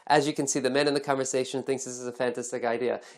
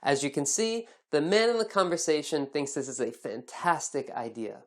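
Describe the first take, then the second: First: The sentence is rushed out very quickly. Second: The sentence is spoken at a comfortable, natural pace. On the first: The speaker is hurrying to fit a memorized template into the time. The speaker calls it wrong. "You might say that really fast" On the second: The speaker is speaking naturally and at ease. The speaker calls it right. "It should sound comfortable and natural"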